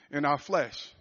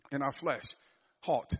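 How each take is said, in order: First: Said in the usual way. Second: In our flesh said again much softer; soft echo. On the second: Shown as a demonstration. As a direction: let In our flesh fall away quietly.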